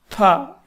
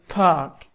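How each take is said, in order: No difference in how they are said.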